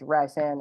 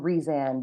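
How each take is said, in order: First: The first syllable sounds like 'rice'. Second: The first syllable sounds like 'Reese'. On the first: This is the hosts' own habitual way of saying it. The speaker calls it wrong. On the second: This is the official way of saying it. The speaker calls it right.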